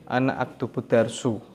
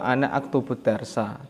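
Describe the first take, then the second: First: The last word ends in a u vowel. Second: The last word ends in an a vowel. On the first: The speaker calls it wrong. "tidak dibaca" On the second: The speaker calls it right.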